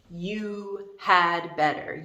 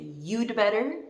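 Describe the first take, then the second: First: The word 'had' is pronounced fully. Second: 'Had' is reduced to a short 'd' sound. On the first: The speaker calls it wrong. "The D represents the word had" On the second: The speaker calls it right. "We say you'd better"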